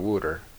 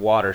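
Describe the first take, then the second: First: The word is said with a southern, rounded vowel. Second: The word is said with a general American vowel. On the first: "she'll go wooter" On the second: "instead of water"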